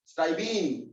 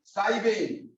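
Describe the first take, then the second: First: स्टाइबीन said with a long "een" ending; स्टाइबीन, drawing the end out to "een"; pet name. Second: स्टाइबेन said with an "en" ending; स्टाइबेन, ending on a short "ehn"; formal IUPAC name. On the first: Teacher giving the home name, स्टाइबीन with "een". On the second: Teacher contrasting the names, स्टाइबेन with "en". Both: Shown as a demonstration. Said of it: "प्यार वाले नाम है घर के".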